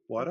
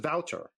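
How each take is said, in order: First: It sounds like a Boston-accented 'water'. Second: It is said with a German pronunciation. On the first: This is close to how the owner says his name. The speaker calls it right. "like a Boston or Brooklyn kind of pronunciation of water" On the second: This is how others assume the name is said. The speaker calls it wrong. "But in German, it's Wouter"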